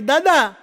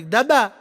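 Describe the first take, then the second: First: Second louder call for grandpa; louder shout across the room. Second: Calling out. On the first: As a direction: call out to him, louder now. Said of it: "મેં દાદાને બીજી બૂમ પાડી". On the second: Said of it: "મેં બાપાને બૂમ પાડી". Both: Retold or imitated.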